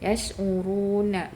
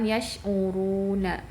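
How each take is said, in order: No difference in how they are said.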